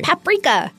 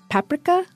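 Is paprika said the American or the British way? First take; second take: American; British. First: It is said the American way. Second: It is said the British way.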